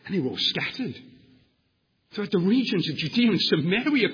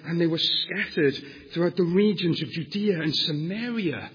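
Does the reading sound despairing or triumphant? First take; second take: triumphant; despairing. First: It is read in a confident, triumphant tone. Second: It is read in a worried, despairing tone. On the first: The scattering serves a greater purpose. "Christ is fulfilling his purposes" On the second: The scattering is a disaster for the church. "Oh, what's going to happen?"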